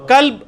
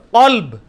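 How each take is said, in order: First: کلب with a thin k and light "a"; ordinary k. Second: قلب louder, with a heavy back q and rounded vowel; deep q. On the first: Teacher gives the word for dog, ordinary k. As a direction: begin کلب with a plain front k. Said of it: "کلب کتے کے لیے". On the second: Teacher contrasts heart with dog, deep q. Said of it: "اور قلب". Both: Shown as a demonstration.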